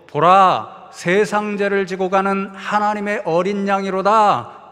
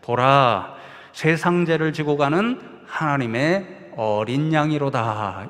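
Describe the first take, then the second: First: It is shouted at the loudest volume. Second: It is said at a normal speaking volume. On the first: The speaker calls it right. "세 번째로 더 큰 목소리로 ... 외쳐서" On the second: The speaker calls it wrong. "평상시에 설교하시던 목소리 정도의 크기로"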